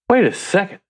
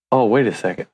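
First: Much higher-pitched, retold surprise; dawning realisation. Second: Said in the usual way. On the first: Man retelling his discovery in Proverbs, dawning surprise. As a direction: let the pitch jump as it clicks.

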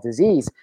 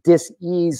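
First: Said in the usual way. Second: "dis-ease" split in two, a clear break before "ease". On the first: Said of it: "a physical manifestation called". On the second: Shown as a demonstration. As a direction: say "dis-ease" as dis plus ease, with a small pause. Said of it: "dis-ease starts in the body".

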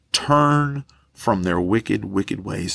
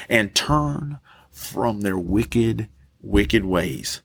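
First: Slow it down and let it sink in; slow repeated verse. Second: Each word drawn out slowly; slow scripture reading. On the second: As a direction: read the verse slowly, weighing it. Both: Shown as a demonstration.

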